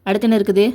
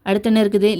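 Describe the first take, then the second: The two takes are said the same way.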